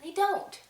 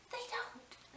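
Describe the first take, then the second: First: "They don't" said again, higher and firmer; emphatic "They don't"; firm repeat. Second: They don't, dropped almost to a whisper; hushed high "they don't"; soft aside. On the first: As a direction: insist on "They don't" with a rising end. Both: Shown as a demonstration.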